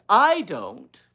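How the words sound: The word I is stressed.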